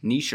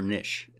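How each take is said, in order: First: "Niche" said as NEESH; long-ee pronunciation. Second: "niche" said as NISH; short-i pronunciation. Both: Shown as a demonstration. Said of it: "How do you say it?".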